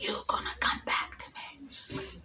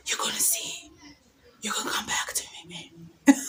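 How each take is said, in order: First: Soft, slow spell-like whisper; whispered prayer. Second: Whispered vow. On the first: Praying her ex back, a secret whispered spell. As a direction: whisper it like casting a charm. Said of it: "sometimes I used to even pray". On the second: Staring at his messages, whispering a playful curse. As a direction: whisper it like a witch's promise. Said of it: "I'm like". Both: Retold or imitated.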